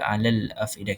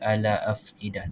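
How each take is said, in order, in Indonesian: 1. Bunyi L diucapkan dengan jelas. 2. Bunyi L dihilangkan sebelum afidah. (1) "kita akan baca alal afidah" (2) "Kita tak baca ala afidah ... itu cara bacaan yang salah"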